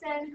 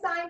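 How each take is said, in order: First: The vowel is short, rhyming with 'pin'. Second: The vowel is long, rhyming with 'line'. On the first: The speaker calls it wrong. "we don't say sin" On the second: The speaker calls it right. "so we say sine"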